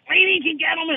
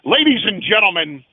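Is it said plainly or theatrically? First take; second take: plainly; theatrically. First: It is said in a plain, flat way. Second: It is said in a grand, theatrical way.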